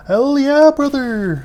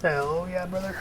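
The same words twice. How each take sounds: First: Loud, high hyped-up catchphrase; hollering. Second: Said in the usual way. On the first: Pretend. Gamer cheering a finished build, loud high holler. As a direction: holler it out, falling on the last word. Calls out catchphrase, much louder.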